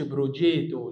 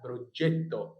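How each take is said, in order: First: بروجيتو with a long "jee" and single t; بروجيتو said wrongly, without the double t; wrong pronunciation. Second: بروجيتو with short "jet" and doubled t; بروجيتو as Italian pro-JET-to; correct pronunciation. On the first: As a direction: stretch the vowel in بروجيتو: bro-JEE-to. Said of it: "ما اقولش بروجيتو". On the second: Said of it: "لا بروجيتو". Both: Shown as a demonstration.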